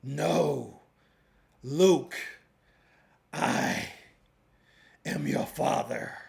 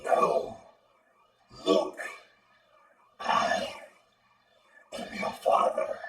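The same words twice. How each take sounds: First: Lightly voiced movie villain line, dry; a hint of a menacing villain, unprocessed; dry Darth Vader line. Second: Breathy processed robot voice; villain line through a robotic filter; robot vocal. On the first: Tutor records a Vader line before the robot effect, mild villain voice. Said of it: "record something using the robot vocal". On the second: Tutor plays the Vader line with the robot preset, robotic. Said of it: "using the robot vocal". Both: Shown as a demonstration.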